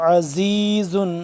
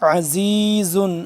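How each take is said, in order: The two takes are said the same way.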